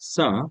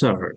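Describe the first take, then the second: First: The word ends without an r sound. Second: The word ends with an r sound. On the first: "আর উচ্চারণ করে না" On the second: "আর American sir"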